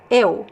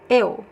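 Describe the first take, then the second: No difference in how they are said.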